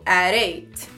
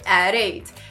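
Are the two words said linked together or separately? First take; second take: Linked; Linked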